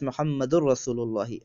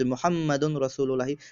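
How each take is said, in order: First: The n blends into the following r. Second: The n before Rasul is clearly heard.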